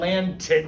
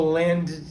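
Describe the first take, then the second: First: The ending is a T sound. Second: The ending is a bare D sound. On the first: "if it says a T sound" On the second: "if you just make it a D sound"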